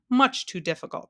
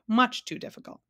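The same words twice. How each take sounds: First: Said in the usual way. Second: "much" higher, emphatic falling "much too difficult". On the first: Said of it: "replied the king". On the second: A narrator's reading. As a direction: stress "much too difficult" in a raised pitch. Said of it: "emphasized the bug".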